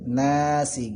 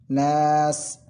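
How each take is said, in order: First: The vowel is short and the s carries i. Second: The vowel is drawn out long, ending on s. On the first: The reading continues into the next verse. "nunnya menjadi dua harakat dan sinnya dibaca hidup" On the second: The reading stops at the end of the verse. "empat harakat atau enam harakat"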